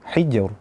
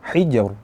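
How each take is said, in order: Both takes have the same delivery.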